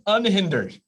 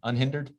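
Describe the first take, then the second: First: The word is said firmly and with assurance. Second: The word is said doubtfully, like a question. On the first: The speaker asserts it is a real word. "Say it with confidence" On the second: The speaker doubts it is a real word. "I don't know if that's a word"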